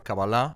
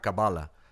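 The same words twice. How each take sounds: First: The word is pronounced the Hebrew way. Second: The word is pronounced the English way. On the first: "en hebreo es Kabbalah" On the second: "en inglés te dirá Kabbalah"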